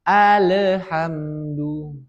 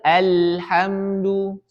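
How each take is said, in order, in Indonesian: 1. Bunyi l mendapat vokal gema yang memantul. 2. Bunyi l mengalir sedang ke bunyi berikutnya. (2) "Kita harus mengalirkannya. seperti itu. Sedang"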